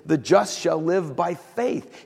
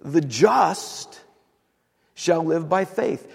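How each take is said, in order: First: "faith" given the weight at the end; stress on FAITH. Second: "just" hit hard and drawn out, pause after it; stress on JUST. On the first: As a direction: land the emphasis on "faith". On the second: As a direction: put the weight on "just". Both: Shown as a demonstration. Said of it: "the emphasis is".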